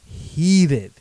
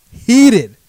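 First: Said in the usual way. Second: HEATED shouted high and loud, falling at the end; emphatic loud repeat. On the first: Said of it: "I wake up and I am". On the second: Retold or imitated. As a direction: slam the word Heated with rising fury.

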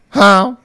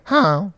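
First: Loud, high honk closing in; louder goose honk. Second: High honk, held back in volume; distant goose honk. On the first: Goose swimming closer to the campers, louder honk. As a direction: honk harder, the goose is nearer. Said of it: "It's getting louder". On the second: Goose swimming in from afar, distant honk. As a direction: honk as if from across the water. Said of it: "from the distance". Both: Retold or imitated.

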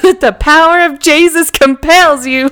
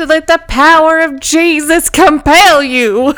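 First: Slightly higher mock sermon call; imitating a drunk preacher. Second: Slightly higher, slow mock exorcism; mock preacher. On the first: Retelling Spencer in New Orleans, a mock preacher's command. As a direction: boom it like a street preacher. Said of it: "Spencer was like". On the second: Quoting a drunk guy in New Orleans, a mock preacher's command. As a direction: intone it like a TV preacher. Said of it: "And I said".

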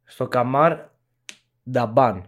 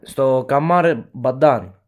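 First: "Νταμπάν" with d first, b second; corrected pronunciation. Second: "Μπαντάν" with b first, d second; slip of the tongue. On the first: Guest correcting the place name after apologising, careful pronunciation. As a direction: say "Νταμπάν" carefully as da-BAN, after a short pause. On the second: Guest naming a similar incident to co-host, misspoken name. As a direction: swap the consonants, saying "Μπαντάν" as ba-DAN. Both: Real, not acted. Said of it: "Συγγνώμη".

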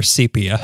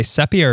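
First: "sepia" with a long E, SEE-pee-uh; second pronunciation. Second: "sepia" with a short E, SEP-ee-uh; first pronunciation. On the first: Host asks co-host how to say it, long-E pronunciation. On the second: Host asks co-host how to say it, short-E pronunciation. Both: Shown as a demonstration. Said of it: "Do you say sepia or sepia?".

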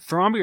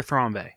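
First: "Thrombey" with a final "ee" sound; Thrombey ending in "bee". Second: "Thrombey" with a final "ay" sound; Thrombey ending in "bay". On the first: Co-host checks a surname, "Thrombey" said as THROM-bee. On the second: Co-host offers the other option, "Thrombey" said as THROM-bay. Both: Shown as a demonstration. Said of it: "Is it Thrombey or Thrombey?".

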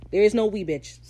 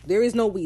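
First: "is" hit hard, then falling; stress on is. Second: "is" punched, slow and deliberate; stress on is, slow. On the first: Vlogger mocking Izzy's "we", hitting "is". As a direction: punch "is" like a final verdict. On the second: Vlogger repeating the line slowly, hitting "is". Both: Retold or imitated. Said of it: "stop speaking French".

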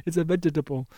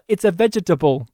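First: "vegetable" as four clipped syllables, VEG-E-TA-BLE; softer, deliberate syllable-by-syllable "vegetable"; every syllable stressed. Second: Every syllable of "vegetable" spelled out, VEG-E-TA-BLE; "vegetable" said as four careful syllables; Steve Martin's accent. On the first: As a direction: pick out each syllable of "vegetable". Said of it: "emphasizing every syllable". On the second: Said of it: "that line delivery from Steve Martin". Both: Retold or imitated.

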